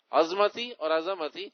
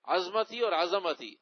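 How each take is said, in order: First: عظمتی repeated with the heavy ظ, then عظمتی with a plain z; contrast pronunciations again. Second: عظمتی first with the heavy ظ sound, then عظمتی with a plain z; contrast pronunciations. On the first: Mufti repeats both pronunciations of عظمتی to the asker. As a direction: stress the first عظمتی, then the second. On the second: Mufti contrasts two ways of saying عظمتی for the asker. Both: Shown as a demonstration. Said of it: "صحیح لفظ ہے عظمتی".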